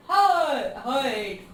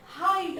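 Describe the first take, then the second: First: "हाइट" blown up with a long, loud first vowel; exaggerated mispronunciation. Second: Said in the usual way. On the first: Shown as a demonstration. Teacher showing how it is not said, exaggerated mispronunciation. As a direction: overdo the vowel in "हाइट" as a wrong example. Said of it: "ऐसा थोड़ी बोल रहे हैं". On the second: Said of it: "हाइट बोल रहे हैं".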